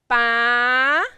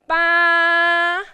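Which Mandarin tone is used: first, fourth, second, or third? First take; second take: second; first. First: It is said with the second tone. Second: It is said with the first tone. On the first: "And tone number two" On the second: "now tone number one"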